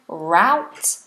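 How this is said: It is said with an American pronunciation. "So American"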